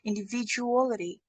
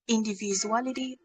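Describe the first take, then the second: First: The middle consonant sounds like a j. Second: The middle consonant sounds like a z. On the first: The speaker calls it right. "it should be J J sound" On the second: The speaker calls it wrong. "it was sounding like kind of Z Z sound"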